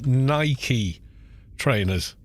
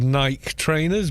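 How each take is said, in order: First: Nike has two syllables, ending in an ee sound. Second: Nike is one syllable, rhyming with bike. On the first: "you cut things with a knifey" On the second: "We always said"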